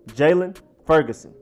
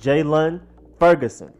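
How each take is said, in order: The two takes are said the same way.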